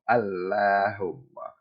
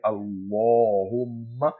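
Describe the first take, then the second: First: The L is light, with a flat mouth. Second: The L is heavy, with a full round mouth. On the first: The speaker calls it wrong. "and not Allahumma" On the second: The speaker calls it right. "we say Allahumma"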